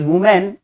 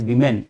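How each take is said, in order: First: "women" said as "WOO-men", higher; "women" as singular "wu-man"; singular woman. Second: "women" said as "WI-men", lower; "women" as plural "vi-men". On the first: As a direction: say "women" with an oo first vowel. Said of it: "ये वुमेन है". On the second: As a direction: say "women" with a short i first vowel. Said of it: "ये वीमेन है". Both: Shown as a demonstration.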